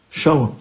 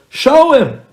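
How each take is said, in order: First: Said in the usual way. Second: A high, loud, demanding push; loud insistence. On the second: Retold or imitated. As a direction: demand it, shouting over him. Buddy insisting again.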